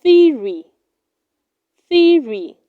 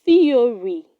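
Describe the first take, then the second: First: Theory said loudly as "THEE-ree"; correct pronunciation. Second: Theory in three syllables, "thee-o-ree"; wrong pronunciation. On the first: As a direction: drop the o of theory, two syllables. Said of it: "It is pronounced". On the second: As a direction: sound the o in theory. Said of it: "Do not say". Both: Shown as a demonstration.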